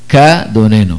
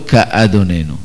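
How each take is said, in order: First: The aleph is silent, with no break. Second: The aleph is pronounced as a separate onset. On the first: The speaker calls it right. "לא מבטאים את האלף" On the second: The speaker calls it wrong. "ולא"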